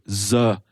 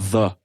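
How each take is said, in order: First: The word begins with a buzzing z sound. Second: The word begins with a soft th sound. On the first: The speaker calls it wrong. "French students will have a tendency to say" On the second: The speaker calls it right. "instead of"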